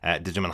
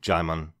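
First: The name begins with a sounded D. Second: The name begins without a D sound. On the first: The speaker calls it wrong. "I pronounced it exactly like that, completely incorrectly" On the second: The speaker calls it right. "pronounces his name Jaimon just like Simon. The D is silent"

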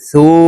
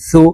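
First: The vowel is drawn out long. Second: The vowel is said short and quick. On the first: "এই সাকে এক আলিফ টেনে পড়তে হবে" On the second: "এই সাকে তাড়াতাড়ি করে উচ্চারণ করতে হবে"

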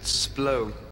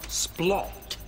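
First: The word ends in an ow sound. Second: The word ends with a clear t sound.

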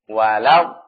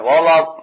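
First: The L is thin with a plain a vowel. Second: The L is heavy and the vowel darkened. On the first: The speaker calls it right. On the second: The speaker calls it wrong.

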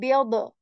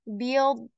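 First: The final d is released with audible sound. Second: The final d is held with no release. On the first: The speaker calls it wrong. "we will avoid saying biod" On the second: The speaker calls it right. "nothing comes out of your mouth after that"

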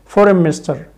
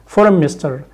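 The two takes are said the same way.

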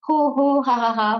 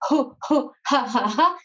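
First: It is said plainly with a full voice. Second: It is pushed out as breath from the belly. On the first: "tout simplement comme ça avec la voix" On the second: "avec l'hyperventilation, avec le ventre"

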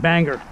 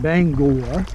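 First: It is said with an outsider's pronunciation. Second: It is said with the local pronunciation. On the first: The speaker calls it wrong. "I was always saying banger" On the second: The speaker calls it right. "I said it right, didn't I?"

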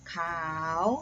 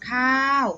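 First: The syllable carries the chattawa tone. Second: The syllable carries the mai tho tone. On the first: "จัตวา" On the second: "ไม่โท"

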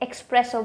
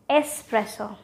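First: The first syllable has an added k sound. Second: The first syllable has no k sound. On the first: The speaker calls it wrong. "with an X" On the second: The speaker calls it right. "just remove that X"

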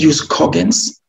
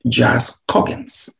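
First: The term is pronounced in a Latin-style way. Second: The term is pronounced in an English-style way. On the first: "I say jus cogens simply because it is a derivative from Latin"

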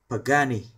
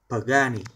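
No difference in how they are said.

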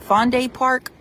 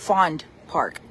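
First: The first word ends with a pronounced vowel. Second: The first word ends without a final vowel. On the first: "does it sound like it's Fonday, that E" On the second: "or is it just silent?"

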